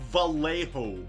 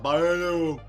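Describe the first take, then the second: First: It starts with V and has an L sound. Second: It starts with a B-like sound and has no L. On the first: "V A L H O" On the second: "You don't pronounce anything apart from a false B and an A, and then an O at the end"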